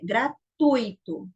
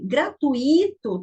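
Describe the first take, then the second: First: The stress does not fall on the 'i'. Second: The stress falls on the 'i' sound. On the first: The speaker calls it right. "Mas a pronúncia correta é gratuito" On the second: The speaker calls it wrong. "da forma que as pessoas às vezes falam... o i iria ser o mais forte"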